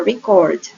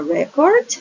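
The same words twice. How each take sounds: First: "record" stressed on the second syllable, re-CORD. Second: "record" stressed on the first syllable, REC-ord. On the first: Teacher repeating the contrast for students, "record" stressed on second syllable. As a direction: put the weight on the end of "record": re-CORD. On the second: Teacher repeating the contrast for students, "record" stressed on first syllable. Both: Shown as a demonstration. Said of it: "There's a difference".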